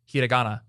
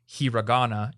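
First: The r is pronounced like a Japanese r. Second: The r is pronounced like an English r. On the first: The speaker calls it right. "it's hiragana" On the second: The speaker calls it wrong. "it's not hiragana"

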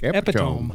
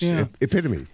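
First: It is pronounced the way it is spelled. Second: It is pronounced the standard, conventional way. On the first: The speaker calls it wrong. "If you just look at it, it looks like epitome" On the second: The speaker calls it right. "But it's epitome"

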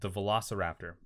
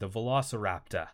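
First: It is said in the speaker's normal accent. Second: It is said in a put-on Australian accent.

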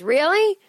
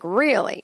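First: It sounds sincere, without any judging edge. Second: It sounds judgmental and skeptical. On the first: The person is simply reacting, not criticizing. "guy goes" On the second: The person disapproves of what was said. "Not like he was judging, like"

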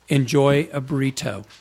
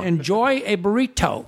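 First: It is said in his normal voice. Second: It is said in a grandma voice.

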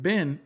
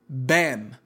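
First: The vowel sounds like the one in bin. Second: The vowel sounds like the one in Ben. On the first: The speaker calls it wrong. "we were pronouncing it like B-I-N, like a recycling bin" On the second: The speaker calls it right. "It's Ben"

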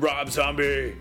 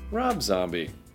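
First: The name is announced in a big, dramatic way. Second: The name is said in a plain, calm way. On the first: The speaker calls it wrong. "I don't know why I said it like that" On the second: The speaker calls it right. "I could have just said it like this"

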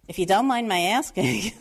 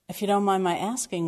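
First: It is said in a heavy New York accent. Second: It is said in a neutral accent.

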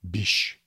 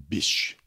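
No difference in how they are said.

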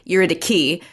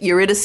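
First: The c is said as a k sound. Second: The c is said as an s sound. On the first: This is the pedantically correct form of the name. "should be a K" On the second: This is the English form of the name. "Eurydice is the anglicized"

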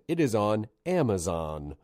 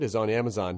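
First: It is said slowly. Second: It is said fast.

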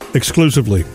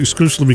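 First: The word is said slowly and clearly. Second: The word is said quickly and jumbled. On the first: The speaker calls it right. "So say it slowly" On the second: The speaker calls it wrong. "I can't say that word ever"

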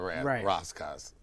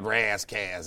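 First: Ras is said as in Rastafarian. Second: Ras is said with a Californian twang. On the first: The name follows its original cultural source. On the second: The name reflects a California identity.

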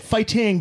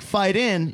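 First: The ending is full, with a clear final g sound. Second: The ending is reduced, with no final g sound. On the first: "this is how you say it" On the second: "never say like fight in"

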